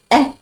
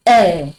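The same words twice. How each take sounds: First: Short, higher "eh"; accent grave sound. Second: Long, falling "eh"; circumflex E sound. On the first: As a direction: say "eh" briefly, as French accent grave. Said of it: "Accent graph is pronounced as". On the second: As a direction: draw out "eh" as an open French circumflex vowel. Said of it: "This accent circumflex pronounced as". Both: Shown as a demonstration.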